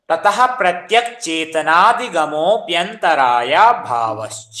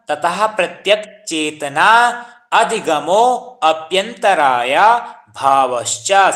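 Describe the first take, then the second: First: The words are blended together into one stretch. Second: Each word is said separately, not blended. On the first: "Sanskrit में कैसे पढ़ना है" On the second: "संधि विच्छेद करके"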